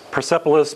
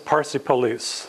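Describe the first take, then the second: First: It is said as one word, Persepolis. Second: It is said as two words, Parsi Polis. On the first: "it's just different pronunciation" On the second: "The Persians that I know call it Parsi Polis"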